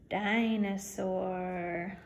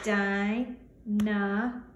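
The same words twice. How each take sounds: First: Dinosaur said very slowly, beat by beat; syllables tapped. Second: Dinosaur slowly, ending on a rise; syllables tapped. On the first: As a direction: drag out Dinosaur in three beats. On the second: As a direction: stretch Dinosaur into three slow beats. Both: Shown as a demonstration. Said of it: "let's tap it out".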